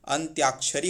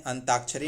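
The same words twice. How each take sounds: First: अंत्याक्षरी with a clear त्य glide; correct form. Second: अंताक्षरी said without the y glide; अंताक्षरी, no य after त; wrong form. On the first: Teacher gives students the correct form, carefully. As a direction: say अंत्याक्षरी with the य sounded after त. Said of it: "अंत्याक्षरी होता है". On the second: Teacher shows the wrong form to students, plainly. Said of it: "अंताक्षरी नहीं होता". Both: Shown as a demonstration.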